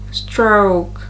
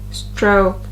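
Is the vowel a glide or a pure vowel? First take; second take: glide; glide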